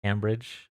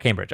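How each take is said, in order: First: "Cambridge" with a short A, rhyming the first syllable with "ham"; first vowel of "Cambridge" as in "ham"; Cam like ham. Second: "Cambridge" with a long A, like "came-bridge"; first vowel of "Cambridge" as in "came"; standard pronunciation. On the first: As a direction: try out "Cambridge" as CAM-bridge, softly questioning. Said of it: "Oh, Cam like ham". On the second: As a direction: say "Cambridge" starting KAYM, matter-of-fact. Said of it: "you're correct". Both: Shown as a demonstration.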